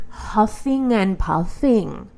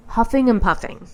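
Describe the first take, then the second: First: Mock huffing. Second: Said in the usual way.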